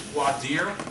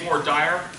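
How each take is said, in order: First: The term gets a standard, non-Southern pronunciation. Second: The term gets a Southern American pronunciation. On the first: The speaker calls it right. "is the correct way to say it" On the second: The speaker calls it wrong. "the southern way of saying it"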